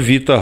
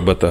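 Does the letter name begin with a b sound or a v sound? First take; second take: v sound; b sound. First: The word begins with a v sound. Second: The word begins with a b sound. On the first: This is how the Greeks name the letter. The speaker calls it right. "В них альфа, віта, гама" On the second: This is the Latin-based naming of the letter. The speaker calls it wrong. "Не альфа, бета, гама"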